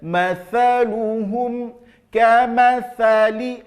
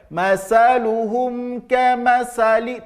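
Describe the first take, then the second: First: The consonant is said with the tongue tip out. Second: The consonant is replaced by a hissing 's' sound. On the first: The speaker calls it right. "Kalau dalam ayat kita bisa baca ... Nah itu dia" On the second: The speaker calls it wrong. "Jangan tertukar ... Tidak. Ya, jangan"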